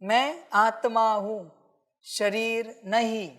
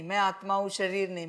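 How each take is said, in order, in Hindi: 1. यह सोच-समझकर और भावना के साथ बोला गया है। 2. यह बिना भाव के, मशीन की तरह रटकर बोला गया है। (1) "तुम्हें स्पष्ट होना चाहिए" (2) "ऐसे नहीं"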